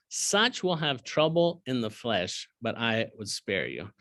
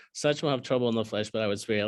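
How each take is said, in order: First: Slow, weighty reading of the verse; solemn scripture reading. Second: Said in the usual way. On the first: Acted. Teacher reading the verse slowly to his class, solemn. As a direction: let the warning sink in. Read slowly then repeated plainly.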